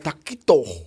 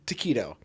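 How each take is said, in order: First: The word is said in a fake Spanish accent. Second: The word is said in a plain American accent. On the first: The speaker calls it wrong. "you're not doing faux Spanish like" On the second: The speaker calls it right. "It's taquito"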